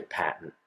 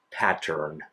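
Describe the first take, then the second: First: "pattern" swallowed to "pat'n", with no R; New England dropped R. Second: "pattern" with a clear T and a sounded R; enunciated. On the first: Spontaneous talk with family, "pattern" said as "pat'n". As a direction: drop the R and shorten "pattern" to "pat'n". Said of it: "if I just say it spontaneously". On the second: Word they force themselves to enunciate, "pattern" fully articulated. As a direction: enunciate both syllables of "pattern", R included. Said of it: "I have to force myself to enunciate". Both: Shown as a demonstration.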